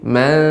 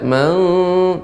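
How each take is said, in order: First: The word is said on a lower pitch. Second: The word is said on a high pitch. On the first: The speaker calls it right. "tapi man dassaha" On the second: The speaker calls it wrong. "tidak mesti harus ting nada tinggi. Tidak man"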